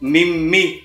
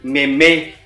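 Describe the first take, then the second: First: It is two syllables with an ee vowel. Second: It is two syllables with a meh vowel. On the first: "atau mimi" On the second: "bukan meme"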